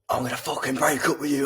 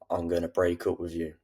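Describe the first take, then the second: First: It is said in an emotional, erratic way. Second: It is said in a calm, sinister way.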